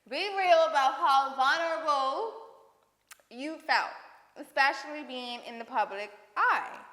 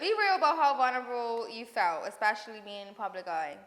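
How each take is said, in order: First: The question is read slowly and clearly. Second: The question is read very quickly. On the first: The speaker calls it right. "Say it slower for the people in the back" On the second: The speaker calls it wrong. "I read it off so fast"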